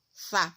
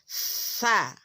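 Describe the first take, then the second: First: The consonant is held back with no airflow. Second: The consonant is said with breath flowing out. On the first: The speaker calls it wrong. "Kalau kita tahan-tahan sa seperti itu tidak mengalir" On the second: The speaker calls it right. "Jadi kita harus alirkan"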